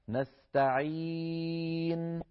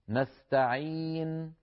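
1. تُمَدّ الحركة الطويلة أربع حركات. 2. تُمَدّ الحركة الطويلة حركتين. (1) "أو 4 حركات" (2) "مدينا بمقدار 2 حركات"

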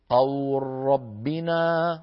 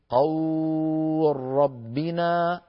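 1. تُمَدّ الحركة حركتين. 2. تُمَدّ الحركة أربع حركات. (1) "لنا أن نمدها حركتين" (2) "أو أربعة"

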